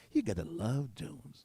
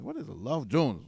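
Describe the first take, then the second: First: Slow, softer imitation of an American accent. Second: Said in the usual way. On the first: Quoting an American friend to listeners, in an American accent. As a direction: draw it out in a put-on American accent. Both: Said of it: "American accent".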